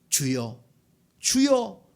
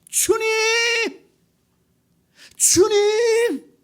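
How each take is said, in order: First: The calling is quiet and calm. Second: The calling is loud and urgent.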